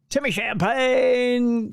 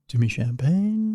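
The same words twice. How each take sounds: First: It is said in a loud rock-DJ voice. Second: It is said in a calm classical-radio voice.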